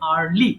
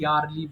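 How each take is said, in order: First: The word starts with a plain vowel. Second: The word starts with a y sound. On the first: The speaker calls it right. "So এটা হবে আর্লি" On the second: The speaker calls it wrong. "এটা ভুল করে অনেকে ইয়ারলি বলে"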